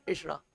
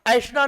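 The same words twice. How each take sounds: First: ऐषणा said with a plain "e" first vowel, quietly and clipped short; correct pronunciation. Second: ऐषणा said with an open "ai" first vowel, as the mistaken form; wrong pronunciation. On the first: Teacher gives students the correct ऐषणा, softly, with an "e" vowel. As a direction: say ऐषणा as eṣaṇā, the right way, softly. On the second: Teacher shows students the wrong way to say ऐषणा, with an "ai" vowel. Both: Shown as a demonstration. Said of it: "ऐषणा नहीं".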